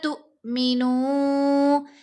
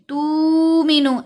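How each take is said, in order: First: The word has a sharp glottal catch mid-word. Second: The word flows smoothly without a glottal catch. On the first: The speaker calls it right. "झटका देकर पढ़ेंगे, जर्क होगा आवाज में" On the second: The speaker calls it wrong. "ऐसे नहीं करना"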